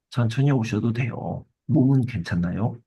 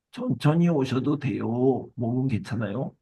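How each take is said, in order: First: Said in the usual way. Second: Lightly acted kind concern, unhurried; warm reassurance. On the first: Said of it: "라며 따뜻한 말부터 전했다고". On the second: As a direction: gently take your time, like an understanding customer. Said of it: "이렇게 따뜻하게 말했어요".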